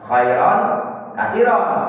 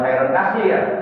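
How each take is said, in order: First: The last word ends in -iron, with final n. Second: The last word ends in -ir, no final vowel. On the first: The speaker calls it right. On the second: The speaker calls it wrong. "Jangan khairon kasir"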